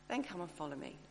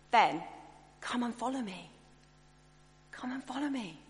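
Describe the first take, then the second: First: A lower, softer, stern command; stern Jesus. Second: A gentle, open, inviting call; warm invitation. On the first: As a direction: say it like a cold order, dropping down. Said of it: "I might sort of say". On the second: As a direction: invite them in kindly, leaning out. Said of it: "more like Jesus spoke about this invitation". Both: Retold or imitated.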